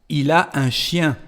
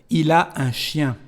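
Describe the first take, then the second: Both takes have the same delivery.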